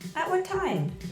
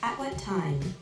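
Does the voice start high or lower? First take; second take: high; lower. First: It starts high and sounds tense. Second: It starts lower and sounds smoother.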